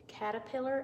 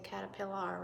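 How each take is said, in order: First: The last syllable has an 'er' sound. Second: The last syllable has an 'ar' sound. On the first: The speaker calls it right. "A R says the er sound" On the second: The speaker calls it wrong. "we don't say caterpillar"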